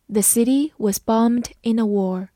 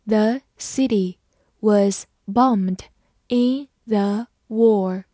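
First: Said in the usual way. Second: Slow, in three chunks; slow model reading for the class. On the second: Shown as a demonstration. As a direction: read it slowly phrase by phrase. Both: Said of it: "慢慢来读".

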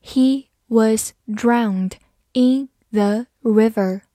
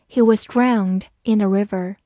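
First: Slow and even, each word clear; slow reading. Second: Said in the usual way. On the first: Shown as a demonstration. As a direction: spell it out slowly for the class. (慢速逐词朗读) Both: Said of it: "好，慢读一遍".

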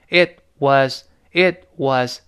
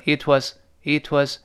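First: "it was" as two separate words; "it was" word by word, without linking; unlinked. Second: "it was" run together, t very light; lightly linked. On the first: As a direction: break "it was" apart, each word on its own. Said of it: "不是，不是读成it was". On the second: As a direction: link "it was" smoothly as one unit. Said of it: "而读成it was". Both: Shown as a demonstration.

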